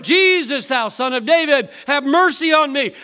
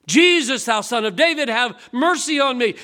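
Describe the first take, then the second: First: Much louder, higher desperate cry. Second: Loud pleading cry to Jesus. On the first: Bartimaeus shouting over the crowd, louder desperate cry. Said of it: "a little louder". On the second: Blind Bartimaeus begging Jesus, loud pleading cry. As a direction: beg loudly for mercy. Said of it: "He began to cry out". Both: Retold or imitated.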